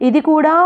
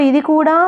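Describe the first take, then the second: The two takes are said the same way.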